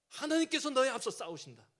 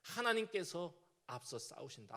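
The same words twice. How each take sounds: First: 하나님께서 stressed, louder, higher, falling; rousing command. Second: Said in the usual way. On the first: Retold or imitated. Deborah urging the anxious Barak into battle, loud rousing command. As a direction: drive home 하나님께서 with full force. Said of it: "힘주는 표현을 하는데요". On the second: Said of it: "이게 드보라의 믿음".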